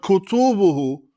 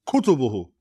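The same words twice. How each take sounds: First: The stress falls on a later syllable. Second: The stress falls on the first syllable. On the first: The speaker calls it wrong. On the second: The speaker calls it right.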